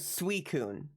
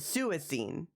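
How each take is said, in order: First: The name ends with a 'koon' sound. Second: The name ends with a 'seen' sound. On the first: This is the official pronunciation. The speaker calls it right. "the official pronunciation is Suicune" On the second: This is a childhood pronunciation. The speaker calls it wrong. "I called it Suicine"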